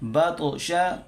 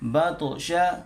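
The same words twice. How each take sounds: Both takes have the same delivery.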